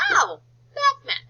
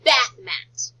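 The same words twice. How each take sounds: First: Oh bath mat, rising high with delight, slower; delighted realisation. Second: Said in the usual way. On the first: Shown as a demonstration. Teacher modelling sudden understanding of bath mat, delighted. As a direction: act out the aha moment for the kids. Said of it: "discovering the word". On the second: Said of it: "All together".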